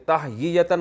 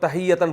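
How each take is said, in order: First: The word has an extra full syllable in the middle. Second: The middle syllables are merged into a shorter word. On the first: This is the regular underlying form, hard to say. "ये तहयीयतन मुश्किल है" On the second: This is how the word is actually pronounced. "तो तहियतन पढ़ते हैं इसको"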